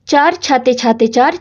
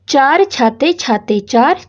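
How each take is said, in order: First: The phrase is spoken at a very rapid pace. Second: The phrase is spoken at a slow, relaxed pace. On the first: "और तेज करें।" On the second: "पहले आप इसको आराम से पढ़ोगे"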